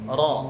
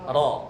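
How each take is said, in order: Both takes have the same delivery.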